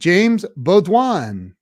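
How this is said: The name is said in a French accent.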